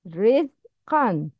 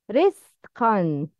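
First: The middle consonant is a voiced z sound. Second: The middle consonant is a voiceless s sound. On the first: The speaker calls it right. "That is a correct pronunciation" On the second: The speaker calls it wrong. "but the wrong is rizqan. No riz, riz wrong"

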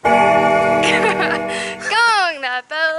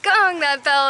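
First: It is said weakly, through a laugh. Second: It is said with strong emphasis.

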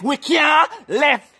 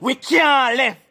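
First: It is said with more life and energy. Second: It is said in a plain, ordinary way. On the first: "Say it with more life" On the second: "Say it after me"

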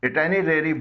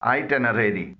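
First: The word begins with a short 'ih' sound. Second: The word begins with an 'eye' sound. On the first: The speaker calls it wrong. "इसे कुछ लोग इटेनरेरी बोलते हैं। यह गलत तलफ़ुज़ है।" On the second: The speaker calls it right. "इसका सही तलफ़ुज़ है"

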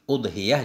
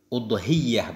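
First: The ya sound is single and short. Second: The ya sound is doubled and held longer. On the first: "enggak pakai tasydid juga boleh" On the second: "Udhiyah tasydid boleh"

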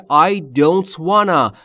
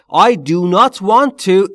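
First: The words are reduced and run together. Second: Every word is said fully and separately. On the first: "مخففش میشه"

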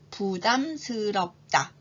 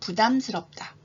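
First: The word is said slowly. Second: The word is said at normal speed. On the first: "우선 천천히 두 번 발음해 볼게요" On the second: "평균 속도로 말해볼까요?"

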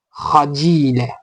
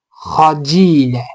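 No difference in how they are said.

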